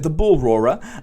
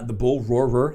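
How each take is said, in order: First: It is said in a British accent. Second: It is said in an American accent. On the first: The speaker calls it right. "it's easier to say in a British accent" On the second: The speaker calls it wrong. "That's hard for me to say as an American"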